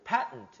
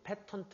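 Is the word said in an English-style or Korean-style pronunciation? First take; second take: English-style; Korean-style. First: It is said with English-style syllables. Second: It is said with Korean-style syllables. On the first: The speaker calls it right. "발음이 patent 이렇게 발음해" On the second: The speaker calls it wrong. "패턴트 아니라"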